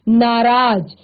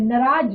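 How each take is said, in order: First: It is pronounced in the standard written form. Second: It is pronounced in a regional colloquial way. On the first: This is the correct form used in writing. The speaker calls it right. "आप लिखते वक्त उसको नाराज लिखते हैं" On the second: This is how it is used in everyday regional speech. The speaker calls it wrong. "हम नाराज शब्द को इसी तरह से यूज करते हैं"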